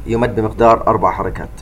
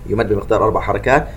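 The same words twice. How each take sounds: The two takes are said the same way.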